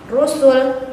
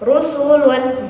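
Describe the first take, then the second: First: The word ends on a bare consonant. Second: The word ends with an -un sound. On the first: The reader stops on this word. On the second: The reader continues without stopping.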